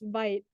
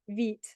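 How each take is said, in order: First: The word is said with an English pronunciation. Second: The word is said with a French pronunciation. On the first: The speaker calls it wrong. "I thought it was pronounced Vite, but it's not" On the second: The speaker calls it right. "It's pronounced Vite, which is French for fast"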